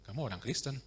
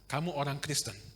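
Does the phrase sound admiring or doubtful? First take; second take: doubtful; admiring. First: It is said as a doubtful, mocking question. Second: It is said as a warm, admiring statement. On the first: "Kok begini kehidupannya?" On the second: "sehingga jelas"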